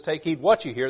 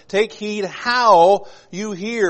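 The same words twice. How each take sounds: First: Said in the usual way. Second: "how" stretched long, higher and slow; stress on HOW. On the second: Acted. Preacher contrasting this verse with Mark's, drawn-out stress on "how". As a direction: lean hard and long on "how".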